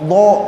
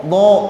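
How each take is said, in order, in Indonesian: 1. Bunyi ini dibuat dengan bibir dimonyongkan ke depan. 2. Bunyi ini dibuat dengan bibir dimonyongkan ke depan.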